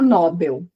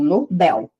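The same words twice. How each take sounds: First: The stress is on the first syllable. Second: The stress is on the last syllable. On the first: The speaker calls it wrong. "a gente não fala Nobel" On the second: The speaker calls it right. "Nobel ser uma oxítona, a última mais forte"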